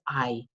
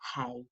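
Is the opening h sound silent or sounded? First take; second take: silent; sounded. First: The word starts with a vowel, h silent. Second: The word starts with an audible h sound. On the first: The speaker calls it right. "you don't pronounce the H" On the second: The speaker calls it wrong. "Be very careful, don't say hay"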